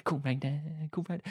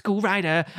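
First: Soft sung refrain, receding; fading into the distance. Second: Sung, snatch of song at usual distance, higher and fuller; sung, nearer. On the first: Singer walks off away from the camera, sung fading away. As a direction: sing it quietly, as if walking away. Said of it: "the song's getting quieter as if it's following her". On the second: Acting out Sandy singing down the steps, sung up close. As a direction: sing it out before it fades away. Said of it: "the song's getting quieter as if". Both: Retold or imitated.

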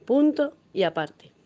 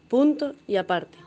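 Both takes have the same delivery.

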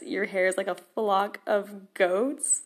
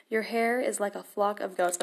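First: Half-laughing, puzzled question; baffled quoting. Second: Said in the usual way. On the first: Retold or imitated. Quoting the odd verse to viewers, baffled and amused. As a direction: repeat the verse with amused disbelief, ending on a rise. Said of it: "I have no idea what it's meaning". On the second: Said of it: "it gets kinda weird".

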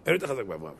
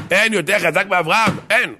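First: Understated, hushed reply; quiet answer. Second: High, raised exclamation; ringing, insistent cry; emphatic proclamation. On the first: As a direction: say it softly, almost under the voice. Answer before emphatic repeat. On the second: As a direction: declare it with full conviction. Emphatic repeat of the answer. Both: Acted.

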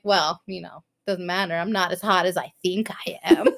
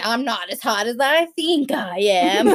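First: Lower, understated self-pity; mock-humble, dropped in pitch, laugh at the end; mock resigned. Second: Mock indignation tipping into laughter; lightly sarcastic retort with a laugh; mock offended. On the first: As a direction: toss it off as if defeated. Running joke said as mock resignation. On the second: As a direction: play wounded pride, amused.

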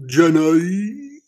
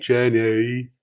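First: Put-on higher, louder Forrest Gump accent, sounding like a donkey; bad Forrest Gump accent. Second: Put-on "Jenny" in a calmer, closer Forrest Gump accent; better Forrest Gump accent. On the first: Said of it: "That's not what his accent sounds like". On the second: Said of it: "That was better".

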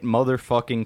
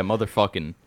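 First: "Motherfucking" with a fully sounded -ing ending; "Motherfucking" pronounced carefully, ending in a clear -ing; clearly sounded G. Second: "motherfucking" ending in a loose -in'; relaxed "motherfucking" with the final G dropped. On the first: Real, not acted. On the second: Shown as a demonstration. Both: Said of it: "you said the G too clearly".

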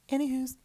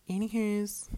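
First: "anywho's" squeaked very high and loud, falling at the end; even higher anywho. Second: "anywho's" squeaked high and loud, sing-song; playful anywho. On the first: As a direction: top the first one with an even higher squeak. Repeated playful topic switch. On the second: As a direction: toss off "anywho's" in a high silly voice. Playful topic switch after rant. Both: Acted.

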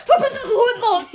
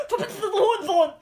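First: Fast, high, very loud laughing shout; loud yell. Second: Fast, high, laughing shout; angry yell. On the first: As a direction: bellow the insult through laughter. Repeats the punchline louder. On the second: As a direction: spit out the insult, laughing. Granny curses the dog. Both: Acted.

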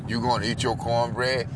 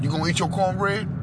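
First: Said in the usual way. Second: Tough guy impression. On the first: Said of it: "and he was like". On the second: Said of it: "remember when Eddie Murphy".

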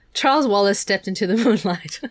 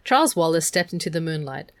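First: Louder, breaking into a real laugh. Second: Said in the usual way. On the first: Real, not acted. Reader loses it over the sentence, really laughing. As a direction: crack up while reading the line.

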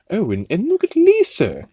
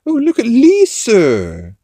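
First: High-pitched imitation of a cartoon accent; excited high mock accent; Stewie. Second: Loud, high, stretched-out cartoon accent; hammed-up accent, drawing the words out loudly; exaggerated high cartoon accent, slow and loud; Stewie. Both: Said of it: "he's doing his Stewie accent".

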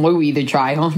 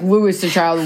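First: "Louis" said LOO-ee, with a silent s; Louie pronunciation. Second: "Louis" said LOO-iss, with a final s; Lewis pronunciation. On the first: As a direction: drop the final s on "Louis". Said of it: "Is it Louis or Lewis?". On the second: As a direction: sound the s ending on "Louis". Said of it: "I just have always said". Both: Shown as a demonstration.

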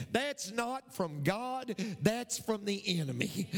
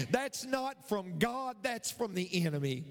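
No difference in how they are said.

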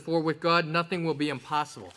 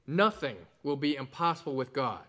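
First: "For with God" punched loud, "nothing will be impossible" dropping after; preacher's loud stress on "God". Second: "nothing" leads the line, weighted and falling; sermon emphasis on the word "nothing"; stress on nothing. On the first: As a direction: lean hard on "God" and let "nothing" fall away. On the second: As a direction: put the weight on "nothing" and let "with God" settle. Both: Shown as a demonstration. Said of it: "the emphasis is upon nothing".

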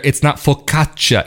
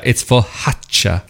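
First: Said in the usual way. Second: "focaccia" said slowly with the hard C softened to an H, like fohaccia; slow, gentle "focaccia" with an H in place of the K sound; local Tuscan pronunciation. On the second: Shown as a demonstration. Showing viewers the local Tuscan way to say focaccia, H for the hard C. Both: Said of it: "I can't even properly do the accent".

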